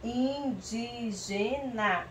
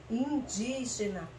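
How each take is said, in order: First: "Indígena" very slowly, in-dí-ge-na; syllable by syllable. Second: Said in the usual way. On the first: Shown as a demonstration. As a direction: stretch each syllable of "Indígena" separately. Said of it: "Vamos ver que palavra formou". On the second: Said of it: "Formou a palavra indígena".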